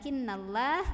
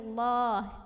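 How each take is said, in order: First: The L sound is light and thin. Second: The L sound is heavy and thick. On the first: The speaker calls it wrong. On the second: The speaker calls it right.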